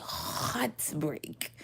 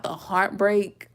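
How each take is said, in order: First: Heartbreak drawn out slow and hushed, breathy h; dramatic heartbreak. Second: Said in the usual way. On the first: Shown as a demonstration. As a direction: say heartbreak slowly and softly, like a sigh. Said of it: "I can't even say heartbreak. I say". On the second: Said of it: "I can't even say heartbreak".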